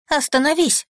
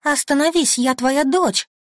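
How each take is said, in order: First: High desperate plea; frantic high begging. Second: High, loud desperate begging; frantic high begging; desperate plea. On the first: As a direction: beg him to stop, terrified. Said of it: "умоляю я". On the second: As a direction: plead to be recognised. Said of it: "рыдаю я". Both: Acted.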